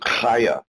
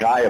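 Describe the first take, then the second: First: The word begins with a guttural sound. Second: The word begins with a hard G sound. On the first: The speaker calls it right. "It's a guttural sound" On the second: The speaker calls it wrong. "it's not Gaia because the G is not pronounced as a G"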